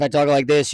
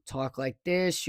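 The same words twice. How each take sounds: First: Pushed louder, a little lower; louder demo. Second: Soft and low, barely audible; quiet demo. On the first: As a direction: raise the volume to test the mic. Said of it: "if I talk like this". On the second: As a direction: drop the voice to show how faint it is. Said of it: "when I talk like this". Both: Shown as a demonstration.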